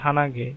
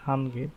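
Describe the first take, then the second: First: The word is said in three syllables. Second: The word is said in two syllables. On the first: The speaker calls it wrong. "ওরা বলবে না যে হানাগে, এভাবে বলবে না" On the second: The speaker calls it right. "বলবে যে কি হানগে, এভাবে একটা"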